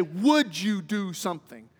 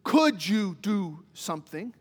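First: Would slow and leaned on, a polite ask; stress on would. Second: Could stressed slowly with a rising ask. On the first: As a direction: lean into the word Would gently. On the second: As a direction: tip the word Could up as a question. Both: Shown as a demonstration. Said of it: "all of these have different meanings".

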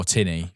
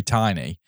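First: "tinny" with a short i, as in "tin"; short-i pronunciation. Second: "tiny" with a long i, as in "eye"; long-i pronunciation. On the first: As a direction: say "tinny" with the first vowel like "pin". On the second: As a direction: say "tiny" with the first vowel like "tie". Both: Real, not acted. Two readings of one name.

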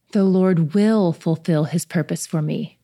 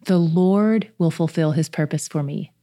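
First: "will" pressed firmly, the verse read slowly; stress on will. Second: "Lord" leaned on, rest of the verse even; stress on Lord. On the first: Meditating on the verse aloud, stressing will. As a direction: lean hard into "will", take it slow. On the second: Reading the verse aloud to listeners, stressing Lord. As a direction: lift "Lord" above the other words. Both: Shown as a demonstration. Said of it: "put the emphasis on a different section each time".

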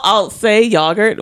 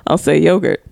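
First: "yogurt" with a short British o; British-style "yogurt", first vowel as in dog; British pronunciation. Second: "yogurt" with a long American o; American-style "yogurt", first vowel as in go; American pronunciation. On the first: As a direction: say "yogurt" as YOG-urt. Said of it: "when I'm with him". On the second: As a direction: say "yogurt" as YOH-gurt. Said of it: "when I'm out with my fellow Americans". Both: Shown as a demonstration.

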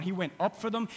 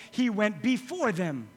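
First: Said in the usual way. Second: "before" slow and stressed. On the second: Shown as a demonstration. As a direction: lean into "before". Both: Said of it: "let's change it around".

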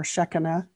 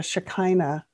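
First: Shekinah as SHEK-uh-nuh; first-syllable stress. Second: Shekinah as shuh-KY-nuh; long-i pronunciation. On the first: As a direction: stress the start of Shekinah, short e and weak middle. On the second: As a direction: stress the middle of Shekinah, rhyming it with China. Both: Shown as a demonstration. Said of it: "depending on how you would pronounce that".

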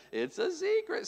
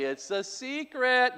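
First: Much higher, softer sing-song secret. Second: Slow, lilting little secret voice; secret sing-song. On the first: Dad imitating the trained kids, high sing-song. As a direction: chirp it like a toddler would. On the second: Parent showing kids how to say it, sing-song. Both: Shown as a demonstration. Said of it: "They have to say it like that too".

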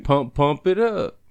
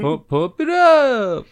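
First: Slightly raised, slow chant; singer bent over. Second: Loud, high, drawn-out "up"; higher inflection on "up". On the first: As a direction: drawl the hook slowly, lightly acted. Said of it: "he's bent over saying". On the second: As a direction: stretch "up" and push it way higher. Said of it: "his voice goes higher in the inflection". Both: Acted.

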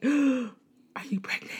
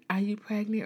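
First: Gasping, high, slow mock alarm; shocked gasp. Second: Said in the usual way. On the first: The teacher fears the crying student is pregnant, shocked. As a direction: gasp and ask in horror. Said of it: "it was like". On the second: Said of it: "I think she said".

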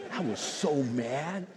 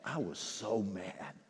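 First: Laughing mock anger. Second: Mock anger.

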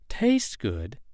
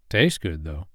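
First: "Tastes good?" rising in disbelief, slightly higher; incredulous echo. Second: Said in the usual way. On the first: Acted. Woman echoing the man's claim about the snake, disbelieving. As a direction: throw his words back at him doubtfully. She repeats his words in disbelief.

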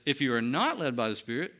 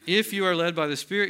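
First: NOT picked out for contrast; stress on NOT. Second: IF hit firmly at the start; stress on IF. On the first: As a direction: lean on NOT to flip the condition. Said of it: "the flip side of that is". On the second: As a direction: lean on the opening IF to mark the condition. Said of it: "See, if, that's why I'm calling it a condition". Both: Shown as a demonstration.

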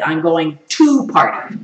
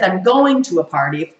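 First: "TO party" drawn out slowly; stress on "to party". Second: Said in the usual way. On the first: Shown as a demonstration. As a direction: stretch TO, then land heavily on "party". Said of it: "or if I said". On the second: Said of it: "It would be different if I said".

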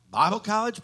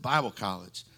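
First: "Bible college" pitched high and rising in disbelief; surprised. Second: Said in the usual way. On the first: Retold or imitated. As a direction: ask "Bible college" as a shocked question. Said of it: "He said". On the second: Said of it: "I said".

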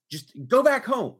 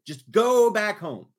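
First: Loud, high, firm command; exasperated order. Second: Slow emphatic order leaning on "go"; exasperated, stretched GO. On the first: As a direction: order her home, fed up. Retold order to sister, exasperated. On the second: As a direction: GO drawn out long, loud and high. Repeats order, drawing out go. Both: Retold or imitated.

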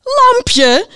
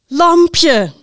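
First: Very high, loud incredulous yell; shouting. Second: Loud, high proclamation with a falling end; winner announcement. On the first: Knight hears the winner, shouting in disbelief. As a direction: shriek the name back in disbelief. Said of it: "riep de ridster". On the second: Host names the number one book, loud announcement. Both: A narrator's reading.

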